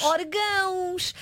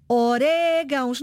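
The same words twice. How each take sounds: First: "Orgãos" with the stress on the last syllable, drawn out slowly; slow and puzzled "Orgãos", stressed on the -gãos; wrong stress. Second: "orégãos" stressed on the E, said slowly; slow, careful "orégãos" with the weight on -ré-; correct stress. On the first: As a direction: say "Orgãos" slowly as the wrong form you overheard. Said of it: "E eu pergunto, mas eu vou pôr orgãos". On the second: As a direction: teach "orégãos", stress on the second syllable. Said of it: "Orégãos, acento no E". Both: Shown as a demonstration.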